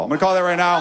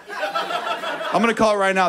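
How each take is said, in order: First: Said in the usual way. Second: Slow prediction. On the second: Shown as a demonstration.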